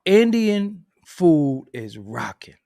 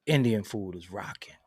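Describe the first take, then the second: First: "Indian food is rocking" stretched out slow and louder; slow emphatic. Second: Said in the usual way. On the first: Shown as a demonstration. Telling viewers about Indian food, slow emphatic declaration. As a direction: lean into every word, slow and firm. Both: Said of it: "repeats it slowly for emphasis".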